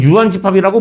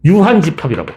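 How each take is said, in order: First: 유한집합이라고 rising as a question; questioning rise. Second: 유한집합이라고 falling at the end as a statement; firm answer. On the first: Teacher quizzing the class on the empty set, questioning rise on 유한집합이라고. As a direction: lift the end of 유한집합이라고, offering it as an option. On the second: Teacher answering their own quiz, falling statement on 유한집합이라고. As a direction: bring 유한집합이라고 down to settle the question. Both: Real, not acted.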